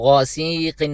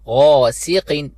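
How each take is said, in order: First: The vowel after the s is drawn out long. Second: The vowel after the s is kept short. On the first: The speaker calls it wrong. "गौसीकिन नहीं पढ़ना" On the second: The speaker calls it right. "सीन को एक हरकत की मिकदार खींचना होगा"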